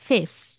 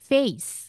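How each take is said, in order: First: The vowel is a plain, steady e sound. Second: The vowel glides from e toward i. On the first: The speaker calls it wrong. "যে এটাকে এই বলে না, সে বলবে" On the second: The speaker calls it right. "আর যে এটাকে এই বা জানে, সে বলবে"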